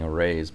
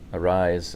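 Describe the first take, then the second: First: The name does not end like 'awry'. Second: The name ends like the word 'awry'. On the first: The speaker calls it wrong. "I've been calling" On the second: The speaker calls it right. "is the correct pronunciation"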